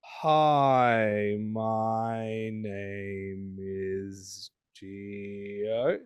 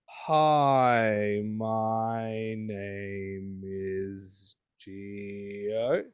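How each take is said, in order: First: Each word is stretched out very slowly. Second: The same.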